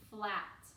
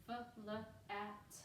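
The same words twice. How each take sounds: First: Said in the usual way. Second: "F-l-at" in separate sounds, softer; sounded out. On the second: Shown as a demonstration. Teacher helping pupils hear the sounds, "F-l-at" sounded out in pieces. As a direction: break "F-l-at" into f, l, at.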